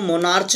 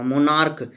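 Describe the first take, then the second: First: The word ends with a 'ch' sound. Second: The word ends with a 'k' sound. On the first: The speaker calls it wrong. "आप इसको मोनार्च नहीं पढ़ सकते" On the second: The speaker calls it right. "ये लिखा हुआ मोनार्क"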